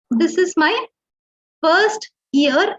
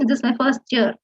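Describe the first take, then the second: First: FIRST YEAR as two separate words; slightly higher, FIRST and YEAR kept apart; said separately. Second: FIRST YEAR run together as "firs-chur"; continuous speech. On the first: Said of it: "if you say it separately". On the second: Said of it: "becomes kind of a ch sound". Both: Shown as a demonstration.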